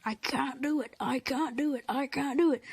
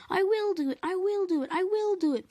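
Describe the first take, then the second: First: Chugging, breathy rhythm; puffing. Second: High, loud, determined chant; determined puffing. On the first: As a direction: puff like a straining engine. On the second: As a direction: push through it with resolve. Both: A narrator's reading. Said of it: "puffed Edward".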